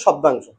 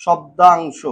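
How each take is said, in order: First: Said in the usual way. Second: "শব্দাংশ" stretched out part by part; broken into pieces. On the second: Shown as a demonstration. Teacher giving students the Bangla term, "শব্দাংশ" said syllable by syllable. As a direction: draw out each syllable of "শব্দাংশ". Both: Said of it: "ছোট ছোট টুকরো করে ভাঙবো".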